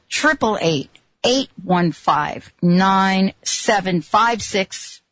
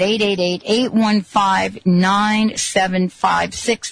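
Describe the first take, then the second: First: The number is said more slowly. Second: The number is said at normal speed.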